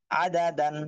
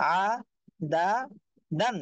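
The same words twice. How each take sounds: First: আ দা দান run together as one word; joined-up reading. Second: আ, দা, দান one by one with clear gaps; broken-up syllables. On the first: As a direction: read আ দা দান straight through without gaps. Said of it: "reading". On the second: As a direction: pause after each of আ, দা and দান. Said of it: "একটা একটা করে পড়বেন". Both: Shown as a demonstration.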